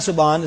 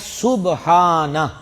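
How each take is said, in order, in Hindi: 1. शब्द का अंत न ध्वनि पर होता है। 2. शब्द का अंत अ स्वर से होता है। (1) "ये सिरे से गलत है" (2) "सही लफ्ज़ क्या है? सुब्हाना"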